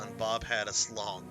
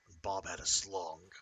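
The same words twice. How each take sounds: First: It is read in the speaker's normal voice. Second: It is said in a put-on gruff character voice.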